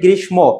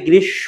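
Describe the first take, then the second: First: An m sound is heard after the sh. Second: No m sound is heard after the sh. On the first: The speaker calls it wrong. "অনেকে উচ্চারণ করে গ্রীষ্ম" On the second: The speaker calls it right. "ম ফলা যদি শেষে থাকে তার উচ্চারণটা হয় না"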